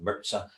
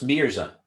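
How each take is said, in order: First: The z is sounded as ts. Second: The z is sounded as a plain z. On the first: The speaker calls it wrong. "some people do the German thing with the Z" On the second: The speaker calls it right. "So so it's Mirza"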